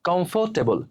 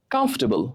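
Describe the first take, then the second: First: কমফোর্টেবল with a full "fo", "kom-fo-te-bol"; common mispronunciation. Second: কমফোর্টেবল squeezed to "kamf-te-bol", high then falling; correct pronunciation. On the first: Teacher repeating how we say it, mispronounced. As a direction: sound every syllable of কমফোর্টেবল. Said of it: "এই শব্দের উচ্চারণটা আমরা করি". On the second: Teacher answering how it should sound, correctly pronounced. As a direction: drop the "or" in কমফোর্টেবল. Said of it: "এর উচ্চারণ কি হবে". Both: Shown as a demonstration.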